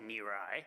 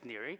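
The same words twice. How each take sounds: First: The name is said the Chicago South Side way. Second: The name is said with Italian pronunciation.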